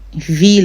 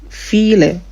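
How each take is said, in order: First: The word begins with a V sound. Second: The word begins with an F sound. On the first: The speaker calls it wrong. "Instead of pronounce V" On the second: The speaker calls it right. "it's pronounced File, F"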